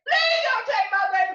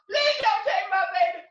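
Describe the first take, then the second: First: The same plea pushed louder and higher, near a scream. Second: Put-on begging out loud, mother clinging to her baby; loud plea. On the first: Acted. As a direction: raise the begging to a scream. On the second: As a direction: plead with the buyer. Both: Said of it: "tears were falling down her face".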